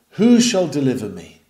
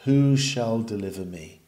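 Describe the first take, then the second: First: Louder, urgent cry for rescue; desperate plea. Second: Lower, fainter, spent plea; fainting cry. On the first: Beaten soldier calls out for a deliverer, louder. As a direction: cry out for someone to save you. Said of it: "he asks the question". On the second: Fainting soldier cries again for rescue, lower and fainter. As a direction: ask it weakly, all strength gone. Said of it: "the poor fainting soldier cries again". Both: A narrator's reading.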